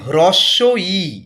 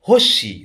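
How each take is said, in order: First: The two words are said fully and separately. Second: The two words are merged into one short word. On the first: The speaker calls it right. "ব্যাপারটা হচ্ছে" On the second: The speaker calls it wrong. "এগুলো বলে কিছু হয় না"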